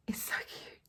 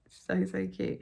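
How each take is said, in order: First: Breathy whisper of delight; whispered cute. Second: Said in the usual way. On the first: Real, not acted. Cooing over her stitched Santa.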